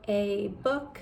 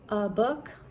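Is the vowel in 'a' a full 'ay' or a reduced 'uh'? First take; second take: full 'ay'; reduced 'uh'. First: The word 'a' has a full 'ay' vowel. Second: The word 'a' is reduced to 'uh'. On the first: "instead of a book" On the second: "from America at least will say a book"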